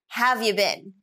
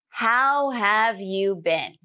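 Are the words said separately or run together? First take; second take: run together; separately. First: The words are reduced and run together. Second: Each word is said clearly and separately.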